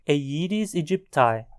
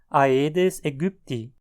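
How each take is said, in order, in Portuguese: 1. É dita com pronúncia inglesa. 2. É dita com pronúncia alemã. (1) "no contexto do inglês, a pronúncia mais adequada" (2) "Já no alemão, a pronúncia será"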